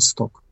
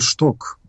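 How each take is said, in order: First: The name begins with an 's' sound. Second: The name begins with a 'sh' sound. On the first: "Англійською, напевно, Сток" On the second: "або Симон Шток, трудно мені сказати, як правильно було б це"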